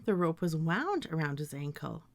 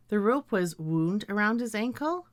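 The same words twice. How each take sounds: First: "wound" with ow, sentence falling; wound as WOWND. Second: "wound" with oo, sentence rising; wound as WOOND. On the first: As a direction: say "wound" to rhyme with "found". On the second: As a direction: say "wound" to rhyme with "crooned". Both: Shown as a demonstration. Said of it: "I could pronounce these words as".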